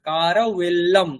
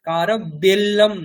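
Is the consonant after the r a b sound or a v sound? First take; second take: v; b. First: The consonant after r is a soft v. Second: The consonant after r is a hard b. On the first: The speaker calls it right. "এটা অন্তঃস্থ ব" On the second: The speaker calls it wrong. "বর্গীয় ব নয় ... কারভেল্লম না"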